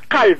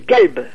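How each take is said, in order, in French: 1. Il commence par un q profond. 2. Il commence par un g dur. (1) "Dites calbe" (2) "C'est un G"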